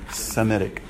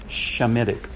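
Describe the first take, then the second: First: The word begins with an s sound. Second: The word begins with a sh sound. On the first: The speaker calls it right. "We say Semitic" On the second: The speaker calls it wrong. "We don't say Shemitic"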